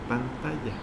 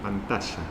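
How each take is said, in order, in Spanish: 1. La consonante del medio suena como una 'y'. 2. La consonante del medio suena como 'sh'. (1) "en México se dice pantalla" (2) "un joven de Buenos Aires que diría pantalla"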